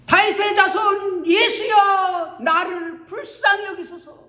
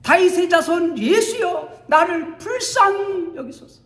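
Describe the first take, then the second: First: High, loud shout, slowed and stretched; louder cry. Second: High, loud desperate shout; louder cry. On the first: Beggar crying louder over the scolding crowd. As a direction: shout for mercy even harder. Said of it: "더욱더 큰 소리로". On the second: Bartimaeus shouting louder past the crowd. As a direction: cry out even louder for mercy. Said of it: "더 큰 소리로 외칩니다". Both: Acted.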